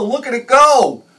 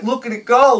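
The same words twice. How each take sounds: First: Slower, high, loud marveling cheer; drawn-out glee. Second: Put-on high, loud kid-like cheer; childlike glee. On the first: Retold or imitated. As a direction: stretch out "Look at it go" in awe. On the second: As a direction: cheer like a five-year-old watching the boat. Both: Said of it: "like I was five years old again".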